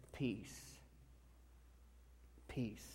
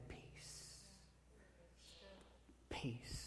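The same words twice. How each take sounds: First: Soft calm peace. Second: Whispered peace. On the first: Jesus speaks calm to disciples. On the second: Preacher voicing Jesus to racing minds. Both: A narrator's reading.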